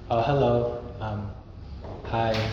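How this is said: It sounds awkward and uninterested.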